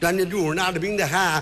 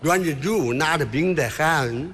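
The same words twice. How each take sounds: First: It is fast, with a mock foreign accent. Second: It is plain Mandarin at normal speed.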